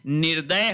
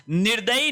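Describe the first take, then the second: First: निर्दय ending on a bare y; correct pronunciation. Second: निर्दयी ending in long ee; wrong pronunciation. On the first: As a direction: say निर्दय as "nir-day". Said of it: "होता है". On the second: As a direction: say निर्दयी as "nir-da-yee". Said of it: "नहीं होता है". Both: Shown as a demonstration.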